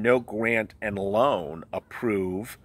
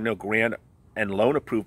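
First: The phrase is read at a slower pace. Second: The phrase is read at a normal, quicker pace.

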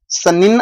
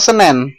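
First: The second vowel is an 'i' sound. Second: The second vowel is an 'e' sound. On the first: This is the standard form. The speaker calls it right. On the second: This is a regional, Betawi-influenced form. The speaker calls it wrong.

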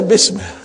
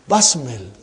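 First: The first vowel is a short 'i' sound. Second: The first vowel is an open 'a' sound. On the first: The speaker calls it wrong. "Don't say bismil" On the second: The speaker calls it right.

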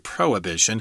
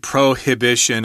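First: The h sound in the middle is silent. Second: The h sound in the middle is pronounced. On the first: "I say prohibition" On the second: "You can pronounce that H if you want to"

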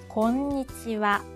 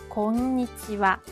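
The two takes are said the same way.

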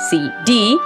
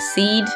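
First: It is said as two letters, C and D. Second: It is said as the single word seed. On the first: The speaker calls it wrong. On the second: The speaker calls it right.

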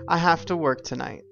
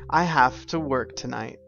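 First: Have to is reduced to hafta. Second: The same.

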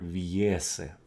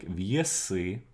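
First: The stress is on the first syllable. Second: The stress is on the second syllable. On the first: This is the older form found in the text. "the stress is actually on the first syllable" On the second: This is the modern form of the word. "in modern Russian, this is not the case"

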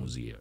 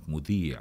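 First: The second consonant is a 'z' sound. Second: The second consonant is a soft 'dh' sound. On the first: The speaker calls it wrong. "وليس" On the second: The speaker calls it right. "والصح أنا كان الوقت ذاك أنطق كلمة مذيع"

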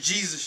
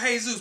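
First: The name is pronounced the English way. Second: The name is pronounced the Spanish way. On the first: This is how the spelling should be read. "It's still spelled J-E-S-U-S. That's Jesus" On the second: "I know y'all pronounce it Jesus"

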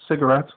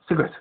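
First: It is said in an English accent. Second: It is said fast in a South African accent. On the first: "So it's not cigarette in English" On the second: "In South African, it's cigarette"

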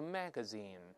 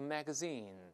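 First: The stress is on the first syllable. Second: The stress is on the last syllable. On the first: This is the American pronunciation. "但美音中重音在前面都是magazine" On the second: This is the Commonwealth pronunciation. "英联邦国家一般都是magazine"

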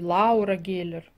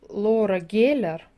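First: The name begins with separate 'a' and 'u' vowels. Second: The name begins with a single 'o' vowel. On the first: This follows the written spelling. "пишется Лаура" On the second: This is how people actually say it. "говорят Лора"

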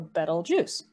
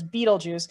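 First: The first syllable sounds like 'bet'. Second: The first syllable sounds like 'beet'. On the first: The speaker calls it right. "So like the word bet, so bet L, so Betelgeuse" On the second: The speaker calls it wrong. "I know many people mispronounce it as Betelgeuse"

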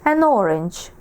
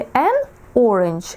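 First: The article and noun run together as one word. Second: The article and noun are said as separate words. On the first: The speaker calls it right. "наче одне слово" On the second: The speaker calls it wrong. "Не an orange, як два окремих"

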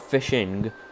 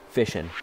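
First: The word ends with a full -ing sound. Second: The word ends in -in without the g. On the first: "Not Fishing" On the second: "F-I-S-H-I-N apostrophe"

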